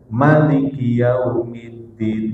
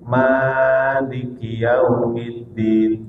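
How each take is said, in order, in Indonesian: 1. Vokal pertama dalam maliki dibaca pendek. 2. Vokal pertama dalam maliki dibaca panjang.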